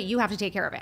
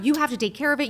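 First: Said in the usual way. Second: Higher and louder, pressing the demand; the first, most desperate repeat; frantic insisting, raised voice; mock frantic plea. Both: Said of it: "screaming at the top of her lungs".

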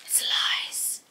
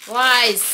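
First: Whispered under her breath; whispering. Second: Loud, frustrated outburst. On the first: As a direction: hush it to a whisper. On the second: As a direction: declare it loudly in frustration. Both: Real, not acted. Frustrated at packaging that won't tear.

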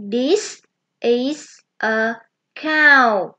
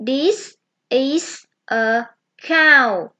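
First: Said in the usual way. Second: This is a cow said very slowly; teacher modelling the sentence slowly for children; slow model sentence. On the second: Shown as a demonstration. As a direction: stretch each word for kids to copy.

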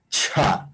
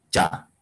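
First: "cha" with breath released after the ch; aspirated ch. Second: Said in the usual way. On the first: Shown as a demonstration. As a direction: puff air into the start of "cha". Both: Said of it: "Aquí".

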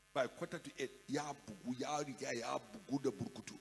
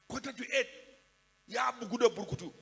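First: Said in the usual way. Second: Higher and louder, an exclaimed repeat. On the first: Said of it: "repeats it loudly". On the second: Shown as a demonstration. Preacher calling out the drunk classmate's state to the congregation, loud. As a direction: call it out louder the second time. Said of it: "first said low, then repeated".

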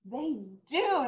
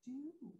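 First: Said in the usual way. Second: Dropped almost to a whisper; a hushed, suspenseful they do. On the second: Acted. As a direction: let the answer slip out very softly. Storyteller hushes the answer.

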